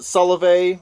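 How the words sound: It is said with a French-style pronunciation.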